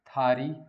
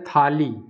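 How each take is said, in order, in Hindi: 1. बीच का व्यंजन र ध्वनि है। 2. बीच का व्यंजन ल ध्वनि है। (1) "तो इसमें क्या हो जाएगा? थारी" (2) "एक शब्द है थाली"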